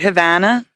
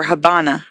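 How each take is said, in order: First: Said in the usual way. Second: Habana with a B sound for the V; local Spanish pronunciation. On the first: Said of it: "pronounce the V a B". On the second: Shown as a demonstration. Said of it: "locals would pronounce the V a B".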